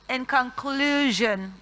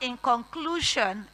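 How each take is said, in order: First: The ending is pronounced zhun. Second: The ending is pronounced shun. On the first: The speaker calls it right. "S I O N sounds jeune mostly" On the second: The speaker calls it wrong. "please do not say Sean"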